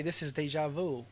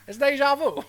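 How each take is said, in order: First: Lightly Brooklyn deja vu; a hint of Brooklyn; Brooklyn accent. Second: Put-on high, loud Brooklyn accent. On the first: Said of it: "Brooklyn accent". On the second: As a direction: say it like a Brooklyn cabbie. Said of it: "Brooklyn accent for a second".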